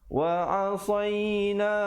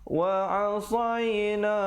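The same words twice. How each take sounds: Both takes have the same delivery.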